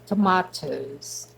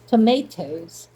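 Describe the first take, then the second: First: It is said with a British accent. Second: It is said with an American accent.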